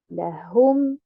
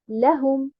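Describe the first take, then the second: First: The stress is on the second syllable. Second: The stress is on the first syllable. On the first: "en plaçant un nabr sur harakat al-ha" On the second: "en mettant l'accentuation ou bien un nabr sur harakat al-lam"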